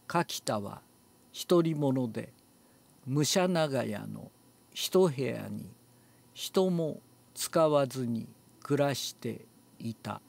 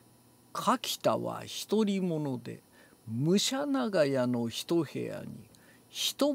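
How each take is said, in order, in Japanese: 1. 文節ごとに区切って、強調せずに平らに読みます。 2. いくつかの語を強く強調して読みます。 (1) "特別なアクセントはつけずに" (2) "デカ丸をつける"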